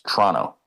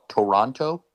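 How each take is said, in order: First: The first vowel is dropped, sounding like Tronto. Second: All three syllables are fully pronounced. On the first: The speaker calls it right. "It's Toronto. Okay, Toronto, like T R O N T O" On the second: The speaker calls it wrong. "If you're an American and you call it Toronto, no, that doesn't sound very bright"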